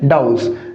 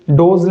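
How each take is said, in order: First: The vowel is 'au' and ends in 's'. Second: The vowel is 'o' and ends in 'z'. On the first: The speaker calls it right. "सही उच्चारण क्या है? डाउस।" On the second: The speaker calls it wrong. "डोज उच्चारण क्या है? गलत।"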